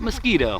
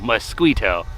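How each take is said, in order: First: The 'qu' is said as a plain 'k'. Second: The 'qu' is said fully as 'kw'. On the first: The speaker calls it wrong. "Not mosquito" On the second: The speaker calls it right. "I pronounced the Q U"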